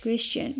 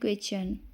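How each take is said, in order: First: The middle sound is a 'ch'. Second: The same.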